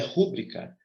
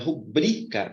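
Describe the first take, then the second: First: The stress is on the first syllable. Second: The stress is on the second syllable. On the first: The speaker calls it wrong. "não é rúbrica" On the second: The speaker calls it right. "A sílaba mais forte está aqui no bri"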